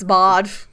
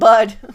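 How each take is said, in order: First: The vowel sounds like 'aw'. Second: The vowel sounds like 'uh'. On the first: The speaker calls it right. "It's bod" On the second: The speaker calls it wrong. "It's not bud"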